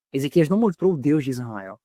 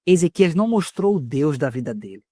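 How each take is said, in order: First: Mostrou carries the weight, the rest lower; stress on mostrou. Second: Não pressed firmly, falling close; stress on não. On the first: Preacher correcting himself, stressing mostrou. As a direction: hit mostrou and drop the line. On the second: Preacher stressing não to the church. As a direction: lean on não, let the rest fall. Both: Shown as a demonstration.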